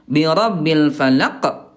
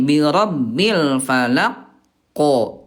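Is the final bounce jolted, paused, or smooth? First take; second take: jolted; paused. First: The final consonant is released with an abrupt jolt. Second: A pause comes before the final consonant's bounce. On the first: "ada hentakan ... Itu juga nggak boleh" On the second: "itu Bunda ada jeda"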